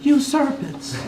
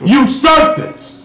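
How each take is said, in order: First: It is said quietly, in a lower voice. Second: It is said loudly and harshly.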